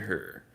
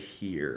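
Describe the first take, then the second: First: It is said in a Southern US accent. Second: It is said in a standard American accent.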